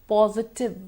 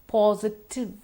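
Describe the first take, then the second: The two takes are said the same way.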